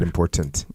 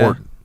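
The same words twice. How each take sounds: First: Both T sounds are pronounced clearly. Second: The T sounds are dropped from the word. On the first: "Two T's in that one" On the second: "Normally there's no T's in it for me"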